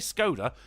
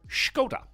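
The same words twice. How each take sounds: First: The name is said in an English way. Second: The name is said in a foreign way. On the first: This is the old, familiar way of saying it. "they always used to say Skoda" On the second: This is how the makers themselves say it. "that's how they pronounce it"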